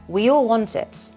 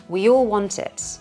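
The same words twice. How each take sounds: The two takes are said the same way.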